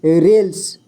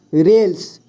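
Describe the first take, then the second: No difference in how they are said.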